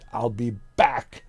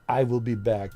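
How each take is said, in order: First: I will is contracted to one syllable. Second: I will is said as two full words. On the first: The speaker calls it right. "I said I'll be back" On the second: The speaker calls it wrong. "Not I will be back"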